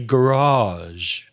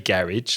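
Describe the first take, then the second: First: It is said in a posh upper-class accent. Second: It is said in an ordinary everyday accent. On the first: The speaker is upper class. "very, very posh ... you say garage" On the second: The speaker is not upper class. "you don't say garage like we do"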